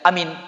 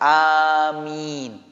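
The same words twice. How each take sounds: First: The vowels are said short. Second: Both vowels are drawn out long. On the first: The speaker calls it wrong. "Tidak amin, tidak begitu" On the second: The speaker calls it right. "A-nya agak panjang, min juga panjang"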